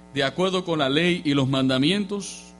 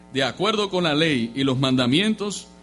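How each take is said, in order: The two takes are said the same way.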